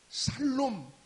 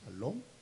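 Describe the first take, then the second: First: The word begins with a plain s sound. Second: The word begins with an sh sound. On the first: It sounds like calling someone one who will live. "살놈 하고 말을 하더라는 것입니다. 제 발음이 정확했나요?" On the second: It is the greeting meaning peace. "발음을 잘해야 합니다"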